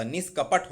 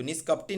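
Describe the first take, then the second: First: निष्कपट ending on a plain t; correct bare ending. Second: निष्कपटी ending in long tee; wrong final ee. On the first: Teacher correcting students, निष्कपट without final ee. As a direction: say निष्कपट as nish-kapat, no ee. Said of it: "निष्कपट होता है". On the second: Teacher rejecting a form, निष्कपटी with final ee. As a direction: say निष्कपटी as nish-kap-tee. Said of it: "निष्कपटी नहीं होता". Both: Shown as a demonstration.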